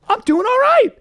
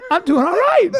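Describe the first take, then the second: First: Loud proud boast; triumphant. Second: Repeated through real laughter; laughing. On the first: To the guys, a loud proud boast. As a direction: announce it like a victory. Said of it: "triumphant then laughing repeat". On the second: To the guys, laughing through the repeat. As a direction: say it again while cracking up. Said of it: "repeat through laughter". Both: Real, not acted.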